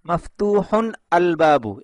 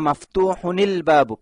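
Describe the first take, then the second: First: The words are said separately with no linking. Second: The words are linked with an added i sound. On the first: The speaker calls it wrong. "এভাবে বলে না" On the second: The speaker calls it right. "আরবরা এভাবে মিলিয়ে পড়ে"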